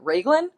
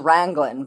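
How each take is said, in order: First: The word is said without an N before G. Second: The word is said with an N before G. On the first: The speaker calls it right. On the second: The speaker calls it wrong.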